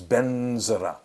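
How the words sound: It is said in the Tibetan way.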